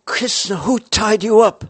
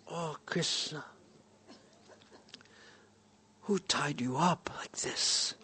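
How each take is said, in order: First: Much higher and louder, demanding to know; loud high question. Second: Put-on hushed, tender question to a frightened child; almost whispered, softer and slow; soft gentle whisper. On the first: Acted. Same question asked again, louder. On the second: Father gently asks tied-up son.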